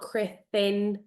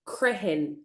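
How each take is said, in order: First: The middle consonant is a th sound. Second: The middle consonant is an h sound. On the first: The speaker calls it wrong. "It's not crithin" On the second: The speaker calls it right. "it's crihin"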